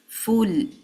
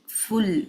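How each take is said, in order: No difference in how they are said.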